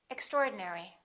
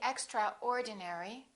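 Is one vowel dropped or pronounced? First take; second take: dropped; pronounced. First: One vowel is dropped entirely. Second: Every vowel is clearly pronounced. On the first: The speaker calls it right. "one vowel, one syllable, which is not pronounced" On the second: The speaker calls it wrong. "Don't say extraordinary"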